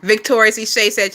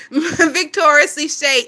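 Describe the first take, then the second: First: Said in the usual way. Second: Amused. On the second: Real, not acted. Repeats the name, laughing, drawn out.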